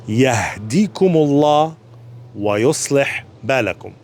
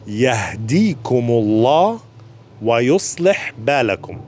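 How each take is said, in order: First: Yahdikumullah wa yuslih balakum drawn out slowly, every syllable clear; very deliberate Yahdikumullah wa yuslih balakum; even slower. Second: Yahdikumullah wa yuslih balakum spoken slowly and clearly; careful, unhurried Yahdikumullah wa yuslih balakum; slower recitation. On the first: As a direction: stretch the dua for beginners. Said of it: "even slower". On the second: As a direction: take the dua slowly for learners. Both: Shown as a demonstration.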